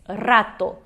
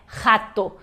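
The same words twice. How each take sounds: First: "rato" with a rolled initial R; strong Spanish R. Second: "Rato" starting with a throaty H; Portuguese R sound. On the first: Teacher says the correct Spanish, rolled R in "rato". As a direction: trill the R that opens "rato". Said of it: "esse R forte". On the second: Teacher shows the mistake, "Rato" opening like Spanish J. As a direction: say "Rato" as HA-to, no trill. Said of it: "é o som do J". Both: Shown as a demonstration.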